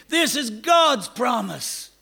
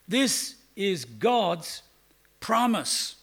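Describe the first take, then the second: First: "This is God's promise." higher, louder and slow, with the peak on "God's"; forceful proclamation. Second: "This is God's promise." said very slowly, with weight falling on "This"; slow emphatic. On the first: Preacher contrasting human promises with God's, proclaiming loudly. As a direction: proclaim it, hitting "God's" hard. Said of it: "We don't keep 'em". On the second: Preacher stressing to the congregation that the promise is sure. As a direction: lay each word down slowly, leaning on "This". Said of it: "This doesn't say perhaps". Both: Shown as a demonstration.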